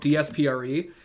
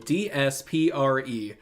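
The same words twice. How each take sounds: First: The letters are said quickly. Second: The letters are said slowly.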